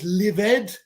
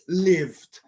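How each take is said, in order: First: The ending is said as an extra syllable. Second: The ending adds no extra syllable. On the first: The speaker calls it wrong. "No es lived" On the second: The speaker calls it right. "it's lived"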